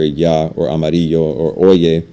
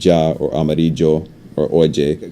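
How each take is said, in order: First: Mexican accent, with a soft y sound. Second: Colombian accent, with a y sound like English j.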